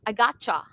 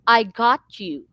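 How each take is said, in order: First: The words are run together and reduced. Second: Each syllable is said separately and fully. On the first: This is how native English speakers say it. "they don't pronounce the words by syllable" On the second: This is how Filipino speakers say it. "we pronounce the words by by syllable"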